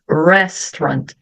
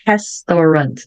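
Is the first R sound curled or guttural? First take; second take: curled; guttural. First: The R is made with a curled tongue. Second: The R is made in the throat. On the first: The speaker calls it right. "e sim restaurant" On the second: The speaker calls it wrong. "aqui eu não vou ler restaurant"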